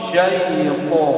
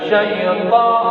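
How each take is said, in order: First: The syllable is pronounced thick and heavy. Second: The syllable is pronounced thin and light. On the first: The speaker calls it right. "kurang tebal ya, ... tapi syaiqo" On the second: The speaker calls it wrong. "Jangan syaiqa"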